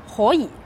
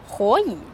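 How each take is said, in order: No difference in how they are said.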